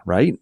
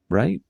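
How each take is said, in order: First: Said in the usual way. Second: RIGHT rising sharply into a higher, unsure question; doubtful questioning. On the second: A narrator's reading. Sarah second-guessing how students dress, "Right?" rising doubtfully. Repeats it, Sarah has no idea.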